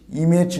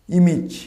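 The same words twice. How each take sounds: First: ইমেজ as "ee-mej", second vowel e; wrong, second take. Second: ইমেজ as "i-mij", second vowel short i; correct, first take. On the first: Teacher contrasting the error, ইমেজ as "ee-mej". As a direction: say ইমেজ with a full e. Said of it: "ইমেজ নয়". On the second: Teacher modelling for learners, ইমেজ as "i-mij". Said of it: "এর সঠিক উচ্চারণ হবে". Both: Shown as a demonstration.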